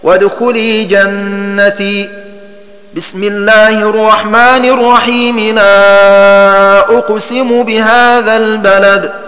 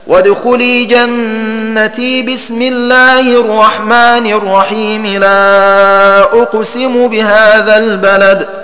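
First: A pause comes after 'jannati' before 'bismillah'. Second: 'Jannati' runs straight into 'bismillah' without pausing. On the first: "الوقف على آخر السورة ووصل البسملة بأول التالية هكذا" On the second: "وصل آخر السورة بالبسملة مع وصل البسملة بأول السورة التالية هكذا"

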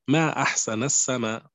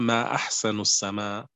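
First: It is said as an exclamation of wonder. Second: It is said as a question. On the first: The speaker marvels at how beautiful the sky is. "هذه صيغة التعجب" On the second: The speaker asks what is most beautiful in the sky. "فهي صيغة سؤال"

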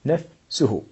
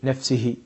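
First: The vowel after the s is u. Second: The vowel after the s is not u. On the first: The speaker calls it right. "إنما تقول جاء زيد نفسه بضمة على السين" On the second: The speaker calls it wrong. "لا يجوز أن تقول"

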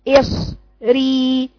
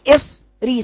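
First: The syllables run together with no break. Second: There is a short stop between the syllables. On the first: The speaker calls it right. "بدون قطع" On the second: The speaker calls it wrong. "سكت"

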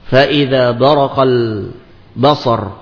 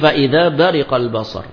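First: The verb's second vowel is a. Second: The verb's second vowel is i.

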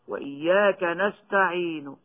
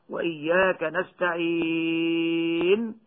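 First: A faint trace of the final vowel is heard. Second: The final consonant is fully silent, with no vowel. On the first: "والروم هكذا" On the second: "بالسكون المجرد"

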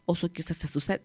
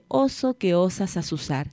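First: The phrase is said at a fast pace. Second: The phrase is said at a slow pace.

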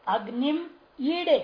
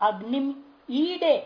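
No difference in how they are said.

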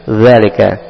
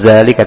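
First: It starts with a th-like sound, tongue tip out. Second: It starts with a z sound, tongue behind the teeth. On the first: The speaker calls it right. "tapi zalika, dikeluarkan sedikit ujung lidahnya" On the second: The speaker calls it wrong. "bukan zalika"

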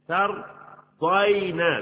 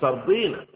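First: The vowel after the d is 'ay'. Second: The vowel after the d is long 'i'. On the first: The speaker calls it right. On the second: The speaker calls it wrong.

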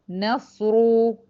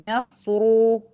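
The two takes are said the same way.

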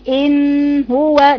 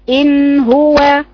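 First: The noon has a long, drawn-out nasal sound. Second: The noon has a short, light nasal sound. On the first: The speaker calls it wrong. "دي طويلة جدا" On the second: The speaker calls it right. "بتحسي برضو باثر الصوت في المناخير"

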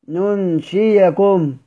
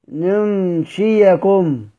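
The two takes are said the same way.

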